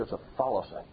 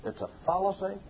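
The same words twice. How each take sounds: First: Said in the usual way. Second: "fallacy" hit hard and much higher; higher, sharper "It's a fallacy"; emphatic denunciation. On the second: Acted. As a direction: fling out "fallacy" as a challenge. Preacher denouncing a notion.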